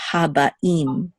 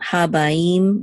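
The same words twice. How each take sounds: First: Slow Habaim with a stop before "im"; separated sounds. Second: Habaim with "ba" gliding straight into "im"; no break between a and i in Habaim; slurred together. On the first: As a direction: say Haba, then a separate "im", in Habaim. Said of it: "we're gonna separate the sounds". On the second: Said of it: "It's not Habaim". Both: Shown as a demonstration.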